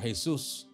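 The name is said with a Spanish pronunciation.

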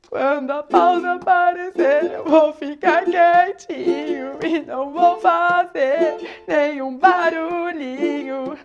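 The voice sounds tearful, as if crying. "Agora chorando"

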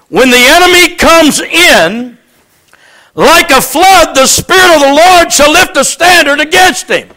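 The pause comes after 'comes in'.

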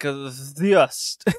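It starts with a ts sound and a v.

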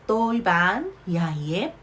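It is said in a southern Vietnamese accent. "남부 발음으로는요"

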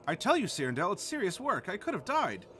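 It is read in a put-on dog voice.

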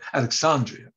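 It is said in a British pronunciation. It is how a British person would say it. The speaker calls it right. "the British don't pronounce it that way"

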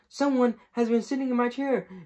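The voice is small and high. "cried in all his wee little voice"

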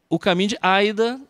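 The name is said with an American pronunciation.

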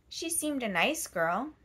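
The stress is on the word nice.

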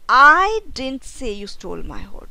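The stress is on the word I.

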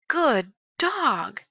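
It is said with strong excited feeling.

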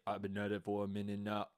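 The pitch stays on one flat note.

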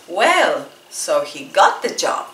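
It is said with an angry, annoyed tone. The speaker is upset that he got the job.

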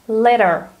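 The middle consonant sounds like a soft D. "the sound T in American English becomes D if it goes between two vowels"

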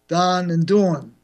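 It is spoken with a New York accent. "In New York, it's Don and Dawn"

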